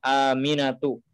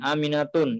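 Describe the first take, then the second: First: The name ends on a plain u vowel. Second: The name ends with an added n sound. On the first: The speaker calls it right. "harus diberikan ya harokat biasa atau dhammah" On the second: The speaker calls it wrong. "ini tidak boleh, salah"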